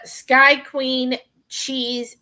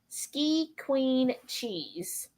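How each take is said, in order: First: The first word rhymes with 'eye'. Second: The first word rhymes with 'see'. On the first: The speaker calls it wrong. "I'm probably mispronouncing it" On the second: The speaker calls it right. "I'm sure it's probably ski"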